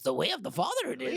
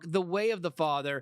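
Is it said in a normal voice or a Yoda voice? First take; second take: Yoda voice; normal voice. First: It is said in a Yoda voice. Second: It is said in a normal voice.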